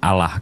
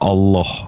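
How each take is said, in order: First: The L is short, like a single L. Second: The L is held long and pressed. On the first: The speaker calls it wrong. "bukan Allah. Kalau Allah tuh L satu" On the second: The speaker calls it right. "double L dalam uh, kaidah bahasa tuh ditekan bang"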